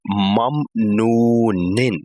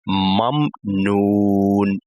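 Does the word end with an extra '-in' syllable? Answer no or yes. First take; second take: yes; no. First: The word ends with a short vowel plus n. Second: The word ends abruptly with no final vowel. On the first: This is the full written form of the word. "So the last movement is kasratain" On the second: This is how it is read when stopping at a verse end. "we will switch this last movement with the sukun"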